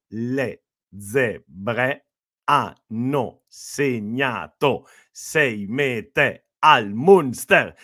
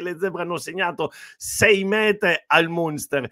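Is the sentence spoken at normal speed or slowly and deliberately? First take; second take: slowly; normal speed. First: Spoken slowly, each word clearly separated. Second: Spoken at a normal, running speed.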